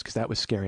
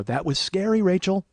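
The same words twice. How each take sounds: First: Said in the usual way. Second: Insistent echo, lifting scary; emphatic agreement. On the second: Retold or imitated. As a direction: push the pitch up through scary. Emphatic agreement, echoing her words.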